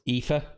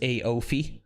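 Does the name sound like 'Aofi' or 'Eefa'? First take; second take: Eefa; Aofi. First: The name sounds like 'Eefa'. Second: The name sounds like 'Aofi'. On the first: The speaker calls it right. "the bottom one there is Aoife" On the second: The speaker calls it wrong. "the most common pronunciation over there"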